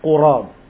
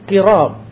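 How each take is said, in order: First: The first vowel is an u sound. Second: The first vowel is an i sound. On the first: "Kalimat qurab didhammahkan di huruf qaf" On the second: "dibacanya dengan kasrah"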